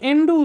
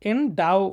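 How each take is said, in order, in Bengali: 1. দ্বিতীয় সিলেবলটি 'oo' ধ্বনি দিয়ে শেষ হয়। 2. দ্বিতীয় সিলেবলটি 'ow' ধ্বনি দিয়ে শেষ হয়। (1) "সো এন্ডু উচ্চারণ করবে না" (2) "এন্ডাও উচ্চারণ করবা"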